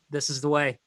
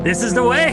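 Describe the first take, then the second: First: It is said in his ordinary accent. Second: It is said in a Cajun accent.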